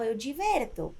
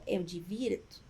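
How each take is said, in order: First: "eu diverto" with e, then rejected; "eu diverto" as a tempting mistake; wrong form. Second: "eu divirto" with i, as the right form; "eu divirto" given as correct, a bit lower. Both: Shown as a demonstration. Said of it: "Não".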